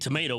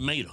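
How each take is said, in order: First: The word is said in full, all syllables. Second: The first syllable is dropped, rural style.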